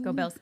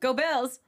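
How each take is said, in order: First: It is said with little energy. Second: It is said with much more energy. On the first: The speaker calls it wrong. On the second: The speaker calls it right.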